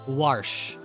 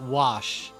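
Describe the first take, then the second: First: The name is said with an R sound. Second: The name is said without an R sound. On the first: The speaker calls it right. "I'm not saying it wrong" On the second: The speaker calls it wrong. "not Wash"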